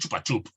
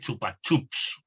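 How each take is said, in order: First: The word ends in a p sound. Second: The word ends in a p then s sound. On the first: "acabado en P" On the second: "con una P"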